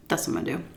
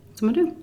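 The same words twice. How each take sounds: First: Quiet, determined whisper; whispered resolve. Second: Said in the usual way. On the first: Retold or imitated. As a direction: whisper it to yourself. Quoted resolve to herself.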